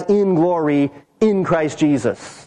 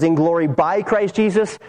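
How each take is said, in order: First: In glory "in" Christ Jesus, slow with weight on "in"; stress on in. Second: Said in the usual way. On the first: Shown as a demonstration. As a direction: draw out "in" before Christ Jesus. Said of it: "It's literally the same as". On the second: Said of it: "translation here says".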